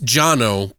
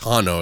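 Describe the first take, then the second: First: The name begins with a J sound. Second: The name begins with an H sound. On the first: The speaker calls it wrong. "it's Jano" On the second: The speaker calls it right. "but it's Hano, it's pronounced"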